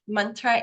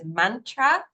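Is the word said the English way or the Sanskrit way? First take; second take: Sanskrit; English. First: The word has a Sanskrit-like pronunciation. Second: The word has a familiar anglicized pronunciation. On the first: "a closer in the Sanskrit pronunciation" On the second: "some of you might be used to hearing this said as mantra"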